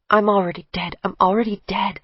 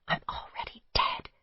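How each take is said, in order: First: Said in the usual way. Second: Breathless whispered mantra; whispering "I'm already dead" to herself. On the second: A narrator's reading.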